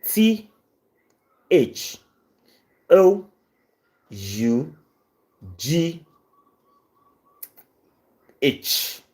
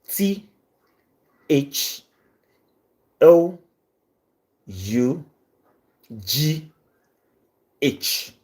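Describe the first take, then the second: No difference in how they are said.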